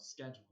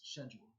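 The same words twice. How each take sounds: First: Schedule starting with a hard SK; American pronunciation. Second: Schedule starting with a soft SH; British pronunciation. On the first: Objecting to teacher about spelling, schedule with SK. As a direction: say schedule as "SKED-jool". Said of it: "doesn't look like it's spelled". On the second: Telling teacher what it spells, schedule with SH. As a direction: say schedule as "SHED-jool". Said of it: "That looks like it spells". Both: Retold or imitated.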